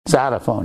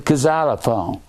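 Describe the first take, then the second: First: The word starts with a Z sound. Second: The word starts with a K sound.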